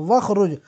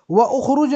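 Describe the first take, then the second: First: वखरुज, hamza dropped, joined as wa-khruj; वखरुज as one joined word; correct joined form. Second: व उखरुज said with the hamza kept, wa then ukhruj; व उखरुज as two separate words; wrong separated form. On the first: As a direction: say वखरुज with the hamza falling away. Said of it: "वखरुज कह देंगे". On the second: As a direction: say व उखरुज with the vowel sounded apart. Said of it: "नहीं कहोगे". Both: Shown as a demonstration.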